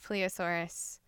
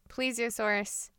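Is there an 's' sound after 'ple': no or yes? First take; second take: no; yes. First: The word has no 's' sound after 'ple'. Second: The word has an 's' sound after 'ple'. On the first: The speaker calls it wrong. "not pleosaurus" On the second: The speaker calls it right. "it's plesiosaurus"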